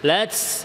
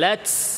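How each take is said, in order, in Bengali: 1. শেষের t-তে s-এর মতো হিসহিস শব্দ বের হয়। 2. শেষের t-তে s-এর মতো হিসহিস শব্দ বের হয়।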